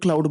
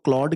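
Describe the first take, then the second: First: The vowel sounds like the one in 'cloud'. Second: The vowel sounds like the one in 'clawed'. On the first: This is how the speaker's own community says it. The speaker calls it wrong. "क्लाउड क्लाउड बोलते हैं हम पाकिस्तानी, हमारा accent ऐसा है" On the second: This is how the name is properly said. The speaker calls it right. "लेकिन इसको क्लॉड कहते हैं"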